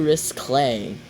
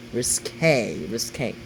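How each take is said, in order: First: "risque" with a stray L, as ris-CLAY; mispronounced word. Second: "risque" as ris-KAY, lower and softer; corrected pronunciation. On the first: Reacting to a quote, "risque" misspoken as ris-clay. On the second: Correcting own slip, "risque" quietly said as ris-kay. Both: Real, not acted.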